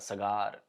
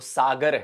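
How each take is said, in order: First: The second syllable has the long vowel. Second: The first syllable has the long vowel. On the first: The speaker calls it wrong. "सगार कह रहे हैं आप" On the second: The speaker calls it right. "वो सागर है"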